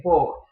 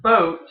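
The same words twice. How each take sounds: First: "boat" with a pure, round "oh"; rounded Yooper vowel. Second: Said in the usual way. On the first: Shown as a demonstration. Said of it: "the Yooper accent makes them more rounded". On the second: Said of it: "So instead of boat".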